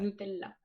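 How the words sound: It has Italian pronunciation, with u like 'oo'. "le U en italien se prononce ou. Donc on devrait tous dire Nutella"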